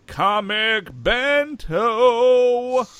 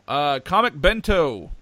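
First: "Comic Bento" stretched very slowly, higher and louder; announcer voice. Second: Said in the usual way. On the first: Shown as a demonstration. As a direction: sell the name like a hammed-up ad announcer.

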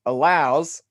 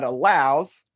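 First: Allows pushed out louder and held; stress on allows. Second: Said in the usual way. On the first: Shown as a demonstration. Explaining a theology book, he stresses allows. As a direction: lean hard on the word allows. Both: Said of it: "I'm emphasizing that word for a reason".

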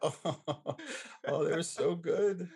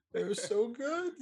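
First: Excited rave. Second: Much higher, slow, rising delight; squealing rave. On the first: Remembering the pies he dreams about, gushing slowly. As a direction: savour every word, thrilled. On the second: Still dreaming of those pies, a slow high squeal. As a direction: let it soar into a squeal of joy. Raving about remembered pies. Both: Real, not acted.

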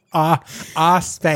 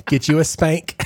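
First: "spank" said as "ah spank", drawn out with a clipped vowel; "Ah, ah, spank" echoed in the caller's accent; imitating clip accent. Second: Said in the usual way.

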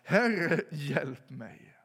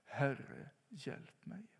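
First: Sudden loud cry on Herre, then dropping; crying out for help. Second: Whispered hjälp mig, rising on mig; an unvoiced, pleading whisper; whispered plea. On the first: Retold or imitated. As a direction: call out loud, desperate, sinking. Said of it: "och så ropar han". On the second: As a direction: viskad bön. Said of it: "kunna ropa".

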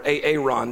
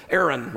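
First: "Aaron" said jokingly as ay-ay-RON; alternative pronunciation. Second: Said in the usual way. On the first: Shown as a demonstration. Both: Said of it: "depending on how you pronounce it".

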